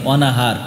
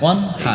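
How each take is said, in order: First: A vowel is inserted after the n sound. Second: The n closes directly onto the h sound. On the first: The speaker calls it wrong. "অনেকে আবার অনাহার কয়" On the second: The speaker calls it right. "নুনের কোনো ই হইব না, নুনের জবর হইব না"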